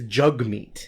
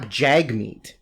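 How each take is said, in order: First: The first vowel sounds like the one in cup. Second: The first vowel sounds like the one in cat. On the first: The speaker calls it right. "that's what it is" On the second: The speaker calls it wrong. "everybody's been mispronouncing his first name"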